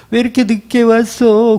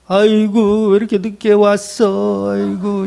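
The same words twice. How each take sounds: First: Higher-pitched wail of a hired mourner; bigger mock wail. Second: Drawn-out, slow funeral wail; mock wailing mourner. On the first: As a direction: turn up the show of lamenting. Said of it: "곡을 더 크게". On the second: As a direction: lament theatrically, with ridicule underneath. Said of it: "조롱하는 거예요".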